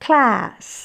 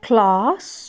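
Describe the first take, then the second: First: It is said with an American pronunciation. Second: It is said with a British pronunciation.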